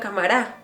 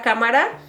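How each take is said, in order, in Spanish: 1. La palabra tiene el acento en un lugar raro e inusual. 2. La palabra tiene el acento natural de siempre.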